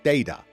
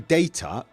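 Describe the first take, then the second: First: The middle consonant sounds like a D. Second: The middle consonant is a clear T sound. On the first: "they say data" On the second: "They don't say data"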